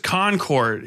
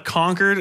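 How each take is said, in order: First: The name does not sound like 'conquered'. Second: The name sounds like the word 'conquered'. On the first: The speaker calls it right. "New Hampshire is Concord" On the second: The speaker calls it wrong. "as in like they conquered New Hampshire"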